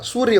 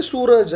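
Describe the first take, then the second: First: సూర్య ending in a joined "rya"; original Sanskrit form. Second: సూరజ్ ending in "raj", no r-y cluster; simplified colloquial form. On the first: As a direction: say సూర్య as "soor-ya". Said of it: "సూర్య పలకలేరు కాబట్టి". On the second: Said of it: "పలకలేరు కాబట్టి సూరజ్ అని". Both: Shown as a demonstration.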